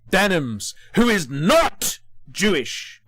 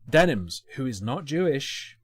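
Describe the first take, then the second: First: The phrase is yelled loudly. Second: The phrase is said at a quieter volume.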